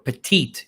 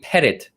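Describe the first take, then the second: First: The word is said like 'petite'. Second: The word is not said like 'petite'. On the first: The speaker calls it wrong. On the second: The speaker calls it right.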